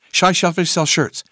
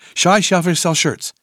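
The two takes are said the same way.

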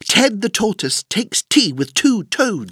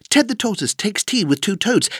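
First: The sentence is said at a faster pace. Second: The sentence is said very fast without pauses. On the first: "plus vite!" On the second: "Encore plus vite!"

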